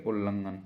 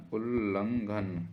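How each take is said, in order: First: Said in the usual way. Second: उल्लंघन drawn out slowly; slow syllable-by-syllable. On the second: Shown as a demonstration. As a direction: sound out उल्लंघन with the doubled ल held. Teacher sounds out the spelling. (उल्लंघन को धीरे-धीरे तोड़कर)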